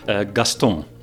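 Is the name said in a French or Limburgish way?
French. The name is said with a French nasal vowel. "made it nasal. That's how the French pronounce it"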